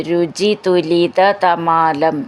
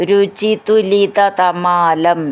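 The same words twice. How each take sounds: Both takes have the same delivery.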